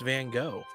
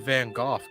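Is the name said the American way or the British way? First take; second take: American; British. First: The name is said the American way. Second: The name is said the British way.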